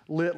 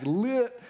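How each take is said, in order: First: Said in the usual way. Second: "lit" drawn out with a rising pitch; slangy "lit". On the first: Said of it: "lit like real lighting". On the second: Shown as a demonstration. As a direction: stretch "lit" like trendy slang. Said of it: "not like lit".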